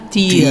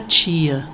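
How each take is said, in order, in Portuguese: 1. O t continua sendo um t simples antes do i. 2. O t soa como 'tch' antes do i. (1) "era dia, tia, que era bem italianado" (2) "ninguém falava dia, tia"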